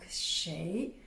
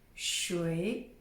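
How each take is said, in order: First: The word sounds like 'shay'. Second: The word sounds like 'shway'. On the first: "S H E I" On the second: "S H U I"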